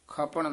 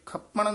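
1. ਸ਼ਬਦ 'ਖਪਣ' ਨਰਮ ਕੇ ਉਚਾਰਿਆ ਜਾਂਦਾ ਹੈ। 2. ਸ਼ਬਦ 'ਖਪਣ' ਕਸ ਕੇ ਉਚਾਰਿਆ ਜਾਂਦਾ ਹੈ। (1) "ਪੋਲਾ" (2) "ਇਹ ਖਪਣ ਨਹੀਂ ਕਹਿਣਾ ਹੈ"

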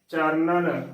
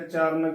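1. ਇਹ ਸ਼ਬਦ ਤਿੰਨ ਅੱਖਰਾਂ ਵਿੱਚ ਬੋਲਿਆ ਜਾਂਦਾ ਹੈ, charanan। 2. ਇਹ ਸ਼ਬਦ ਦੋ ਅੱਖਰਾਂ ਵਿੱਚ ਬੋਲਿਆ ਜਾਂਦਾ ਹੈ, charan। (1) "ਸਹੀ ਉਚਾਰਨ ਹੈ" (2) "ਚਰਨ ਗਲਤ ਉਚਾਰਨ ਹੈ"

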